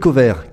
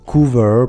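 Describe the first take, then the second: First: The name is said like French 'covère'. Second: The name is said with a long 'oo' sound. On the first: It makes a pun on the French for green beans. The speaker calls it wrong. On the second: It is the real pronunciation of the name. The speaker calls it right.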